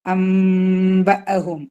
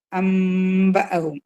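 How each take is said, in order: First: അംബ അഹും chanted very slowly and a bit louder, m hummed; long nasal അംബ അഹും; recitation demo. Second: അംബ അഹും chanted very slowly, m hummed; drawn out അംബ അഹും; recitation demo. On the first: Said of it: "ആക്കിയിട്ട് മണിക്കുക". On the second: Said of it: "ഇതിൻ്റെ ഉള്ളിലൊരു നൂനുണ്ട്". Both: Shown as a demonstration.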